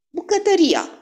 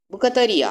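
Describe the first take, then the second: First: High, louder exclamation; sudden realisation. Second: Higher echoed exclamation, less forceful; exclaiming. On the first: Poirot realises where the hiding place is, exclaiming. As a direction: burst out on a much higher pitch. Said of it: "Am fost un imbecil". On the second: Hastings echoes his friend's idea, exclaiming. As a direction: exclaim it back on a raised pitch. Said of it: "am exclamat". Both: A narrator's reading.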